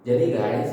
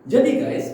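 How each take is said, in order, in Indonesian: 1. Diucapkan dengan nada yang lemah dan kurang bertenaga. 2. Diucapkan dengan nada yang ceria dan penuh semangat. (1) "Tidak yang seperti ini" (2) "Intonasinya kurang lebih kayak gitu"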